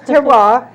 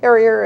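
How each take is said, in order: First: The word ends with a 'wahr' sound. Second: The word ends with an 'ee-er' sound. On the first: The speaker calls it right. "it's terroir" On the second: The speaker calls it wrong. "Sometimes some people have a hard time pronouncing it"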